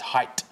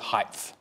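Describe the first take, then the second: First: The word ends with a plain t sound. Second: The word ends with a th sound. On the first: The speaker calls it right. "It's height with just a T" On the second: The speaker calls it wrong. "There is no such word as height"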